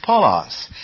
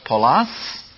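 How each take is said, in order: First: Paulos stressed on the first syllable, PAU-los; right take, leaning on PAU in Paulos. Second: Paulos stressed on the last syllable, -LOS; wrong take, stressing Paulos at the end. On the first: Teacher showing the right way, Paulos stressed on PAU. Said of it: "It is Paulos". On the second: Teacher showing the wrong way, stressing Paulos at the end. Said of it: "Paul's name is not". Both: Shown as a demonstration.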